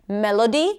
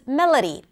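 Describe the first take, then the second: First: The unstressed vowels are said as full vowels. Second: The unstressed vowels are reduced to schwa.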